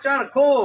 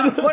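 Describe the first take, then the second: First: The word begins with a ch sound. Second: The word begins with an h sound. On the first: The speaker calls it right. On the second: The speaker calls it wrong. "હરખો નહીં બેટા"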